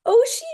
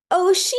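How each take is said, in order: First: High, loud rising question; astonished high query of the name; surprised echo. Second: Put-on high, loud toddler voice; child voice answering her name; little girl's answer. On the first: Retold or imitated. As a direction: repeat the name in amazement. Echoing the name in disbelief. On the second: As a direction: say the name like a two-year-old. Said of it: "And she says".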